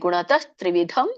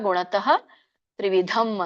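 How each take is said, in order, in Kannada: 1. ಎರಡು ಪದಗಳನ್ನು ಸೇರಿಸಿ ಒಂದಾಗಿ ಹೇಳಲಾಗಿದೆ. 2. ಎರಡು ಪದಗಳನ್ನು ಬೇರೆ ಬೇರೆಯಾಗಿ ಹೇಳಲಾಗಿದೆ, ಸೇರಿಸಿಲ್ಲ. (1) "ಕೂಡಿ ಹೇಳಿ" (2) "ಬಿಡಿಸಿದಾಗ"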